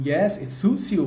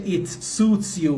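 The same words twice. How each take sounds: First: Said in the usual way. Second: Slow, spaced-out English answer; slow model answer. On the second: Shown as a demonstration. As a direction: lay each word out slowly. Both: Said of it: "حالا جلوتر نوشتم".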